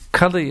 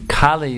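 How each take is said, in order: First: The first vowel is said short. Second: The first vowel is held long. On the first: It names the male personification of the age. "Kali is a male personality" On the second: It names the goddess. "Kali is the goddess"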